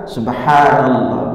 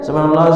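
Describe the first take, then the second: First: It is said slowly. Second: It is said fast.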